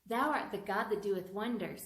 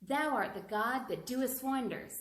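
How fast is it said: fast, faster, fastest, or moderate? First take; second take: faster; moderate. First: It is said at a faster speed. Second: It is said at a moderate speed. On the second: "Try to say it faster and faster and faster"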